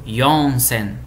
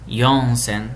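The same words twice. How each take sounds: Both takes have the same delivery.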